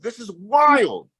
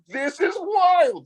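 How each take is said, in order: First: Amazed exclamation. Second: Very high, slow shout of disbelief; amazed exclamation. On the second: Telling the girl how amazed he was, slow high shout. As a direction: let it burst out high and drawn-out, stunned. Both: Retold or imitated. Amazed at Dutch man's reaction.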